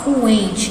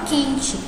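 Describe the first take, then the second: First: A 'w' sound follows the first consonant. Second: No 'w' sound follows the first consonant. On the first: The speaker calls it wrong. "a gente não fala coente" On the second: The speaker calls it right. "A gente não pronuncia o U, a gente fala quente"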